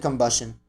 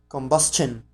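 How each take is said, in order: First: The t is not said as ch. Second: The t is said as a ch sound. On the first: "I'm gonna say combustion" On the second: "So that T has the ch sound"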